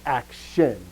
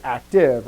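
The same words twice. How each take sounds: First: "action" slowly, with "-tion" clearly marked; careful enunciation of "action". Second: "active" with its ending "-tive" clearly marked; careful enunciation of "active". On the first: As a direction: stretch out and stress the ending of "action". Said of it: "I'm saying action". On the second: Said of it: "notice I'm not saying active". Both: Shown as a demonstration.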